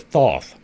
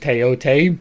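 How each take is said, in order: First: The name is said in its anglicized pronunciation. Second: The name is said in its current pronunciation. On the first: The speaker calls it wrong. "the English version of it ... That's even worse" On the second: The speaker calls it right. "that is the current pronunciation of it"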